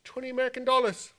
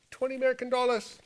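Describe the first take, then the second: No difference in how they are said.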